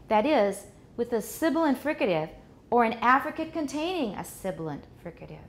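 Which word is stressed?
affricate. The word affricate is stressed more than others. The listener can hear what is new in the second part. The speaker calls it right. "So the correct way"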